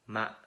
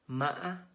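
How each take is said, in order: First: The pitch is low and broken. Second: The pitch is high and broken. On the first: "low broken" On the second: "With high broken tones"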